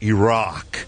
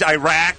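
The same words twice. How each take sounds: First: It is said the newer, affected way. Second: It is said the older, everyday way. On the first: This is the newer correction people push. The speaker calls it wrong. "It's now Iraq" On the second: This is how people always said it. The speaker calls it right. "it was always Iraq"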